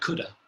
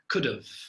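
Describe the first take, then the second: First: It ends with a schwa and no v sound. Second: It ends with a schwa followed by a v sound. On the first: "sometimes we don't even put the v" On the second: "it's like a schwa... and then a v at the end"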